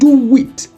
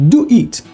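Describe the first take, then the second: First: A w glide links the two words. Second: The words are said without a w glide.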